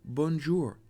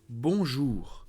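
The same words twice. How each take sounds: First: It is said with an English accent. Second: It is said with a French accent. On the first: The speaker calls it wrong. "I say with the English accent" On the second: The speaker calls it right. "because it's bonjour"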